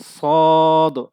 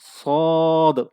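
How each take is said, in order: No difference in how they are said.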